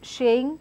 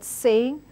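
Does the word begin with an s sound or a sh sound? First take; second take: sh; s. First: The word begins with a sh sound. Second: The word begins with an s sound. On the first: The speaker calls it wrong. "I end up saying uh, shaying" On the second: The speaker calls it right. "instead of the word saying"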